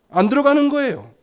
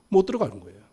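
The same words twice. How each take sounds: First: 안 pitched high and louder, as a correction; stress on 안. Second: Said in the usual way. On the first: Shown as a demonstration. Preacher corrects can't to won't for congregation, stressing 안. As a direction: punch 안 against the earlier 못.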